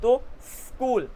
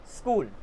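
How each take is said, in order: First: स्कूल drawn out with a long s; slow स्कूल, hissing before कूल; hiss, then kool. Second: स्कूल run together with a short s; finished pronunciation. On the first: Teacher builds the word, slow hissed स्कूल. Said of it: "सांस को छोटा कर दो". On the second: Teacher gives the result, short-s स्कूल. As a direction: say स्कूल as one smooth word, s straight into k. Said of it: "आपकी pronunciation निकल जाएगी". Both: Shown as a demonstration.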